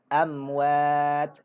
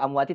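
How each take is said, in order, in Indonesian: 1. Kata itu berakhir dengan bunyi t tanpa vokal. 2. Kata itu berakhir dengan bunyi i pendek. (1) "tapi baca"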